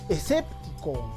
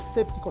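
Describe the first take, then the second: First: There is an s sound before the p. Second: There is no s sound before the p. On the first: The speaker calls it right. "sino escéptico" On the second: The speaker calls it wrong. "No se dice exéptico"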